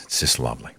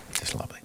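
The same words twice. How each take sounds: First: Softly swooning over it; dreamy gushing. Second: Barely voiced, utterly charmed; whispered gushing. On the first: Pretend. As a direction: sigh it out like you're charmed. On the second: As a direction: whisper it, swooning. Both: Gushing over foreign accents.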